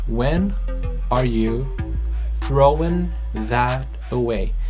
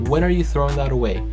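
First: The words are said separately with small pauses. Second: The words run together quickly without pauses. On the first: "Vamos por partes" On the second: "só que eu tô conectando tudo, que fica bem curto e fica uma frase mais natural"

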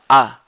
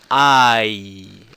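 First: The word is reduced to a short 'ah'. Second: The word has a full 'eye' diphthong. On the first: "Ela fala a" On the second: "Ela não fala assim I"

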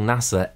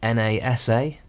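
First: It is said as one word. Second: It is spelled out letter by letter. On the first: The speaker calls it right. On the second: The speaker calls it wrong.

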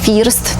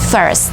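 First: The vowel is a Polish-style 'ee' sound. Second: The vowel is the sound heard in 'bird'. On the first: The speaker calls it wrong. "To nie jest first, tak jak wielu chce, żeby było, no bo jest tam i, to chcemy to wymówić po polsku jak i" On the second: The speaker calls it right. "Tam jest ten dźwięk, który mamy w wyrazie bird"

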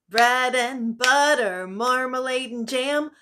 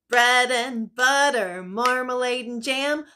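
Both takes have the same delivery.

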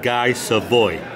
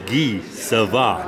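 First: The name is said with an American pronunciation. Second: The name is said with a French pronunciation. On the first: The speaker calls it wrong. "not Guy Savoy" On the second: The speaker calls it right. "it's Guy Savoy ... Guy Savoy is French"

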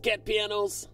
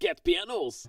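First: It is said in the speaker's usual accent. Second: It is said in a British accent.

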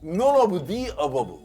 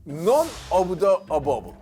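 First: The word 'the' is said with a long 'ee' vowel. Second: The word 'the' is said with a short 'uh' vowel. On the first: The speaker calls it right. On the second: The speaker calls it wrong.

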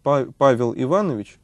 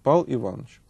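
First: All the sounds of the name are pronounced. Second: Some sounds of the name are dropped. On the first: "вместо" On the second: "можно говорить"

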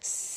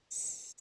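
First: The hissing sound is louder. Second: The hissing sound is very quiet. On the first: The breeze is a little stronger. "А тепер давайте голосніше, вітерець трошки сильніший" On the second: A light breeze is blowing. "Ще тихіше"

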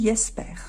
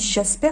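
First: The name begins with a Y sound. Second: The name begins with a soft J sound. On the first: The speaker calls it right. "le J en allemand se prononce comme un Y" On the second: The speaker calls it wrong. "ce n'est pas m'a dit Jasper"

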